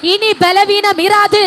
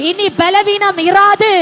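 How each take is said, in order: Both takes have the same delivery.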